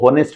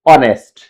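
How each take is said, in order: First: The word begins with an audible h sound. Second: The word begins directly with a vowel sound. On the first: The speaker calls it wrong. "कई बार इसको होनेस्ट बोल देते हैं" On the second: The speaker calls it right. "एच है हमारा वो silent हो जाएगा और हमारा प्रोनाउंसिएशन शुरू होगा ओ से"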